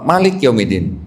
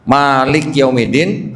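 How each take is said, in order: First: "Malik" with a short first vowel. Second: "Malik" with the first vowel held long. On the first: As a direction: keep the "Ma" in "Malik Yaumidin" short. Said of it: "panjang pendek?". ("Malik" dibaca dengan Ma pendek) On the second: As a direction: stretch the "Ma" in "Malik Yaumidin". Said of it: "Ma-nya panjang pendek?". ("Malik" dibaca dengan Ma panjang) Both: Shown as a demonstration.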